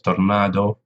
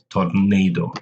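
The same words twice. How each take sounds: First: The word is pronounced the Spanish way. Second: The word is pronounced the English way. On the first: "in Spanish" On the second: "In English"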